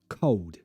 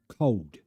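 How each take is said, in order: The two takes are said the same way.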